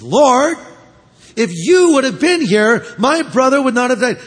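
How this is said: The line is spoken in a sharp, accusing tone. She blames him for not coming. "Maybe sort of thrusting her finger in his face"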